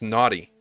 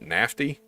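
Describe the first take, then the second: First: It is said with no f sound. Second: It is said with an f sound. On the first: This is the usual way to say it. The speaker calls it right. "that's pronounced naughty" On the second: This mocks how some Europeans would say it. The speaker calls it wrong. "Do you E U guys pronounce it nafty? Because that's kind of strange"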